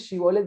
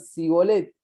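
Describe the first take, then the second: First: The word begins with a sh sound. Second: The word begins with an s sound. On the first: This is the intended pronunciation. The speaker calls it right. "cuando querían decir Shibolet" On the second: It reveals the speaker as an outsider. The speaker calls it wrong. "decían Sibolet"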